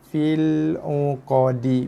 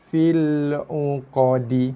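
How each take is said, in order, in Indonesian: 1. Kata terakhir berakhir dengan vokal pendek. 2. Kata terakhir berakhir dengan vokal pendek.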